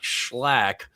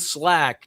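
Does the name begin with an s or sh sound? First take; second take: sh; s. First: The name begins with an sh sound. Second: The name begins with a plain s sound. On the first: The speaker calls it wrong. "not Schlack" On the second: The speaker calls it right. "Benjamin Slack"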